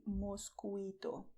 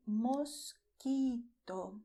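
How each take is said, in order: First: "mosquito" wrongly said mos-kwee-to; pronounced u. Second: "mosquito" slow, as mos-kee-to with no w; silent u. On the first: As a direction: sound the u in "mosquito" as a w. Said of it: "You do not say mosquito". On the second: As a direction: say "mosquito" slowly, leaving the u silent. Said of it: "which is written but not pronounced". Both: Shown as a demonstration.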